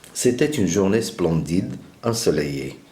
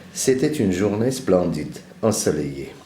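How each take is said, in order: The two takes are said the same way.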